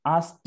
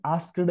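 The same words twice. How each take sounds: First: आस्क्ड said in one syllable, "askt"; आस्क्ड as "askt", the correct way; right pronunciation. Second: आस्क्ड said as two syllables, "ask-ed"; आस्क्ड as "ask-ed", the way not to say it; wrong pronunciation. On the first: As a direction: clip आस्क्ड short, ending in a "t" sound. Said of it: "आस्क्ड ही बोलते हैं". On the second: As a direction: sound out आस्क्ड with an extra "ed" syllable. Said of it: "इसका pronunciation आस्क्ड नहीं बोलना है". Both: Shown as a demonstration.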